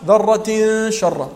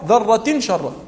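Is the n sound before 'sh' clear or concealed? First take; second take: concealed; clear. First: The n sound is nasalized and hidden before sh. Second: The n sound is pronounced clearly before sh. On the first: The speaker calls it right. "وما قالش ذرة شرا" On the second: The speaker calls it wrong. "قال ذرة شرا. هذا الخطأ تاعه"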